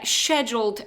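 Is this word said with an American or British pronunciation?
British. It is said with a British pronunciation. "is the British pronunciation"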